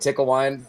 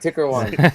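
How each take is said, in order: First: It is said in the speaker's ordinary American accent. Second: It is said in an imitated Japanese accent.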